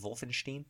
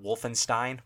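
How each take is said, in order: First: It is said in the original, non-local way. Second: It is said in the common local way. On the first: The speaker calls it right. "the way it's supposed to be said" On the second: The speaker calls it wrong. "which is how most people say it here"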